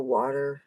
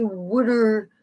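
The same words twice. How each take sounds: First: Said in the usual way. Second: "wooder" said with a "wood" sound, a d for the t and a dropped r; South Jersey "wooder". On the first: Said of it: "instead of". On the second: Retold or imitated. Southern New Jersey locals' way of saying water, lightly imitated. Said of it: "people will say".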